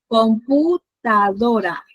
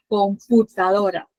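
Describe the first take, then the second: First: Computadora drawn out very slowly, each syllable separated; slow syllabified demo. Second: Said in the usual way. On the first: Shown as a demonstration. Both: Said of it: "tras antepenúltima sílaba".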